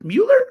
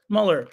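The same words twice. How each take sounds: First: Mueller as MYOO-ler, shooting up high and loud; questioning pronunciation. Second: Muller as MULL-er, falling at usual pitch; alternative pronunciation. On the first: Host testing the name, incredulous-sounding high Mueller, MYOO-ler. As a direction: query "Mueller" with a y glide and a big rise. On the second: Host weighing the other option, falling Muller as MULL-er. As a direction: answer with "Muller", short vowel, falling. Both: Shown as a demonstration. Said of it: "Is it M".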